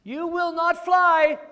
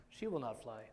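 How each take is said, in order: First: High, loud, slow squeal; slow shouted pig line; loud Piggy. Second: Said in the usual way. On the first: Acted. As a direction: insist it like a stubborn little pig. Piggy voiced in picture book.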